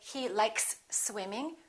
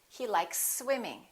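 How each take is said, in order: First: Two separate s sounds are pronounced. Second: The two s sounds blend into one. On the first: The speaker calls it wrong. "We don't say he likes swimming" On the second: The speaker calls it right. "We blend it together. We can eliminate this first S"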